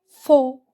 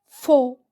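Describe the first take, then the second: Both takes have the same delivery.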